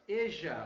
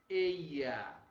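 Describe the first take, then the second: First: The middle consonant sounds like a j. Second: The middle consonant sounds like a y. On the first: This is how the River Plate region says it. "olha o J de novo, Uruguai e Argentina, Rio de la Plata" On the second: This is how most countries, including Spain, say it. "E a letra I, ... que a maioria deles, inclusive Espanha, pronuncia assim"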